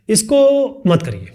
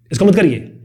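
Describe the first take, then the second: First: Drawn out slowly, each word held; slow firm take. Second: Quick, with weight on मत; quick firm take. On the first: Teacher showing two ways of saying one line, slow version. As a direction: say it slowly and deliberately. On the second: Teacher showing two ways of saying one line, quick version. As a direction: hit मत and keep it brisk. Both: Shown as a demonstration. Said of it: "दो अलग तरीके का हो गया ना बोलने का तरीका".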